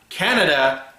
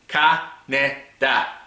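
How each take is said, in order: First: The name sounds like the country Canada. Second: The name is said as kah-neh-dah, syllable by syllable. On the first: The speaker calls it wrong. "Not Canada" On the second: The speaker calls it right.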